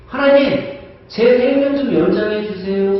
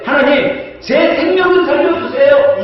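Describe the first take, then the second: First: King begging God to extend his life; pleading prayer. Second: Higher, louder pleading cry; king crying out to God for his life; desperate plea. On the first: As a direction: beg God for more years. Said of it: "히스기야 왕은 뭐라고 기도를 해요". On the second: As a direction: beg God to spare your life. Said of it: "히스기야 왕은 뭐라고 기도하냐면". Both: Pretend.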